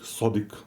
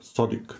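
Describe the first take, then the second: First: The word begins with a deep s sound. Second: The word begins with a deep s sound.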